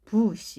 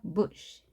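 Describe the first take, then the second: First: The vowel is long and heavy. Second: The vowel is short and light. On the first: The speaker calls it wrong. "bush 이렇게 하는 것이 아니라" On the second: The speaker calls it right. "가볍게 짧게"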